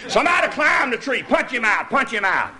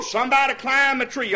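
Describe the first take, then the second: First: Excited shout. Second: Said in the usual way. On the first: Retold or imitated. Same words repeated.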